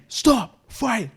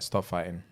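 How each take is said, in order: First: It is said in a sudden loud shout. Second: It is said flat and calm, in monotone. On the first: He has lost his patience. "when he shouted" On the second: He is asking without anger. "So it'd be monotone"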